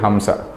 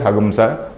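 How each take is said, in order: First: A plain nasal 'm' sound is in the middle. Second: A 'gam' sound replaces the nasal in the middle. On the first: This is the word's actual form. "but the actual word is Hamsa" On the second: This is how Yajurveda reciters say it. "All these Yajurvedis, they pronounce it as Hagamsa"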